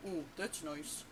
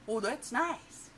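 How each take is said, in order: First: Tiny puckered-lip frog voice; meek, pinched joke punchline; small-mouthed frog. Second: Loud, high, drawn-out frog voice; brash, swooping cartoon reply; obnoxious frog. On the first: Acted. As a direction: say it through a pursed little mouth, rounding the vowels. Frog hides his big mouth from wolf. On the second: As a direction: gush it slowly with a big wide mouth. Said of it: "and he's obnoxious".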